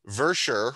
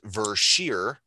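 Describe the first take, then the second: First: The final syllable sounds like 'sher'. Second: The final syllable sounds like 'sheer'. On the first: The speaker calls it wrong. "as I was pronouncing it the whole time" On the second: The speaker calls it right. "is actually pronounced Versheer"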